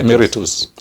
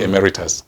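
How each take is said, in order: First: The word is pronounced the Latin way, as spelled. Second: The word is pronounced the anglicized English way. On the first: "it is pronounced the way it is written" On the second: "people have anglicized it to be emeritus"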